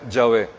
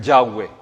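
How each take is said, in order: First: The name is said with a Spanish pronunciation. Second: The name is said with an English pronunciation. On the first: "Probablemente lo más correcto sea Yahvé" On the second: "Los gringuitos, los británicos ... angloparlantes ... dicen Yahweh"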